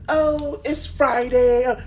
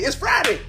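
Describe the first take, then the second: First: It is said in a gloomy, unhappy way. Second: It is said in a happy, upbeat way.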